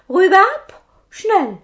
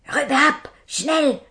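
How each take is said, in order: First: Much higher, louder squeaky order; a little man demanding heads, high and loud; tiny captain's order. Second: Hissed order. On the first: Robber captain orders the pilgrims beheaded, squeaky and loud. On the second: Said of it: "zischte der Hauptmann nochmal". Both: Acted.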